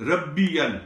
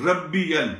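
The two takes are said the same way.

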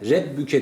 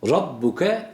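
First: The r is thin with an e-like vowel. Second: The r is heavy with an open a vowel. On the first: The speaker calls it wrong. "rebbuke değil" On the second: The speaker calls it right. "Hükmü ra ne dedik? Kalındır dedik. A sesiyle okuyoruz"

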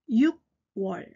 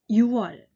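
First: A k sound closes the first syllable. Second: No consonant closes the first syllable. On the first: It sounds like a southern dialect. The speaker calls it wrong. "육월とは言わないです" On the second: It is the standard Seoul form. The speaker calls it right. "パッチンを落として発音します"

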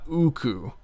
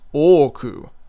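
First: The word begins with an 'oo' vowel. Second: The word begins with an 'oh' vowel. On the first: The speaker calls it wrong. "it's not uku" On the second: The speaker calls it right. "It's oku, two O's in a row, with a very slight glottal stop separating them"

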